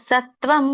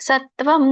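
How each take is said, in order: No difference in how they are said.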